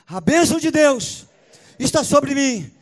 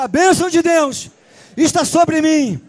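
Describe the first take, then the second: First: It is said at a normal volume. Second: It is said more loudly and forcefully.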